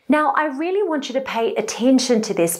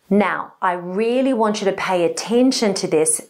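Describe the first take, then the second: First: The voice is pitched high throughout. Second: The voice is pitched low throughout. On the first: The speaker sounds flippant and less attention-grabbing. The speaker calls it wrong. "Here it is in a high-pitched tone" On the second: The speaker sounds serious and means business. The speaker calls it right. "And here it is again in a low-pitched tone"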